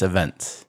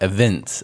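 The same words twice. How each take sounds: First: "events" with an E vowel, uh-VENTS; "events" with "vent" in the second syllable. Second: "events" with a short I, ih-VINTS; "events" with "vint" in the second syllable; wrong vowel shown. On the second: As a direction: say "events" as evince with the I of "mint". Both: Shown as a demonstration. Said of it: "But the I sounds like an E".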